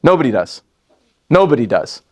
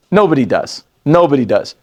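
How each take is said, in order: Both takes have the same delivery.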